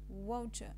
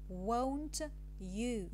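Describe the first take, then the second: First: The t and y fuse into a ch sound. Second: The t and y sounds are kept separate. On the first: "the casual transcription is won't you" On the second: "This is the careful transcription"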